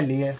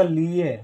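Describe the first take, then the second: First: लिए with a short, quick i; लिए said with no lengthening of the first vowel; correct short i. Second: लिए mispronounced as लीए, ee held long; लिए with a drawn-out लीी; wrong long ee. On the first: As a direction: keep लि brief in लिए. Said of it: "जबकि हमको लिखना है लिए". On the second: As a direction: stretch the first vowel of लिए into ee. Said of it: "तो ये गलत हो जाएगा". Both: Shown as a demonstration.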